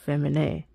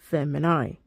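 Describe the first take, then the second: First: It is said in ecclesiastical Latin pronunciation. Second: It is said in classical Latin pronunciation. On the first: "depending on if you're classical or ecclesiastical" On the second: "depending on if you're classical or ecclesiastical"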